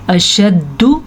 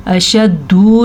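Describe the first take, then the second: First: अशद्दु with a brief final u, pitch lifting; अशद्दु, doubled d and short ending. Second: अशद्दु as "ashaddoo", last vowel stretched; अशद्दु with a long oo; wrong long ending. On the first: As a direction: recite अशद्दु, cutting the last vowel short. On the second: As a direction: lengthen the final u of अशद्दु by mistake. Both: Shown as a demonstration. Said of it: "अशद्दु नहीं करना".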